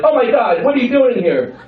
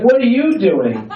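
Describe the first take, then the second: First: High, panicked mom act; acted high-pitched alarm; startled mom. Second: "you" leaned on, high and slow; high, drawn-out kid's question with weight on "you"; stress on YOU. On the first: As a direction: exclaim it as a parent caught in the act. Startled mom caught by her child. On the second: Acted. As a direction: throw the question back, hitting "you". Child turns question back on mom.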